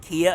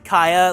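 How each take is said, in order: First: The name begins with a 'key' vowel sound. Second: The name begins with a 'kite' vowel sound. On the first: This is how most people say it. The speaker calls it wrong. "Everyone's been saying Kia Asylum" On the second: This matches the intended reference. The speaker calls it right. "it's supposed to be Kaya"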